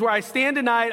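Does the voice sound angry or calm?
angry. It is read in an angry, gruff voice.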